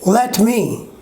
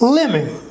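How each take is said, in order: First: The t sound is clearly pronounced. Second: The t sound is dropped completely.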